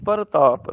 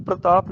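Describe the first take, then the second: First: ਪ੍ਰਤਾਪ as par-taap, full r. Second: ਪ੍ਰਤਾਪ as pr-taap, p and r joined; clipped r cluster. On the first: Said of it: "ਰਾਰਾ ਪੂਰਾ". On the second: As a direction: run p and r together in ਪ੍ਰਤਾਪ. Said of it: "ਪ੍ਰਤਾਪ ਨਹੀਂ". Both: Shown as a demonstration.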